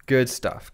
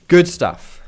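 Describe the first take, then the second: First: Said in the usual way. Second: Bright, loud, high "Good stuff"; excited cheer. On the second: Real, not acted. Streamer hyping a teammate's play, loud excited cheer.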